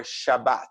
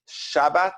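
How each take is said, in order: First: Shab-BAT, second syllable emphasized; stress on last syllable. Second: SHAB-bat, first syllable emphasized; stress on first syllable. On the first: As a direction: put the accent on the "bat" of Shabbat. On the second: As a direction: put the accent on the "Shab" of Shabbat. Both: Shown as a demonstration. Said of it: "where to put the emphasis on a word".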